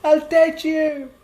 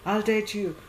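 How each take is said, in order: First: High, loud, drawn-out declaration; imitated shouted surrender, pitched way up; emphatic yell. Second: Higher-pitched, quick placating agreement; acted reluctant yes; half-meant agreement. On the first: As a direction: yell it slowly at the top of your voice. Retold girl finally yells agreement. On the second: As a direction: give in without really meaning it. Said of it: "you're just saying it like that".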